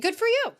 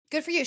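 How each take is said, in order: First: High excited cheer. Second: Said in the usual way. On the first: Real, not acted. Host cheering Garcelle for walking off stage. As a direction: cheer her on.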